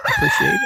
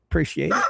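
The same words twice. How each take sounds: First: Much higher, squeaky put-on voice; goofy cartoon-high thank you; silly squeaky thanks. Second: Said in the usual way. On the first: Thanks a viewer twice.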